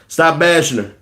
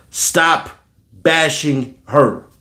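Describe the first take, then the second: First: Said in the usual way. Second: "Stop", pause, then "bashing her" drawn out slowly; slow emphatic repeat. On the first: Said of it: "repeats phrase, then slowly". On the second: Shown as a demonstration. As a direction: spell out "bashing" word by word. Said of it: "repeats phrase slowly for emphasis".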